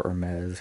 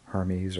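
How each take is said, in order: First: Hermes as er-MEZ, silent H; alternative pronunciation. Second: Hermes as HER-meez, H sounded; English pronunciation. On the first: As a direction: drop the H in Hermes, end it "ez". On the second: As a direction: say Hermes with an H and an "eez" ending. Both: Shown as a demonstration. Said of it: "however you wanna say it".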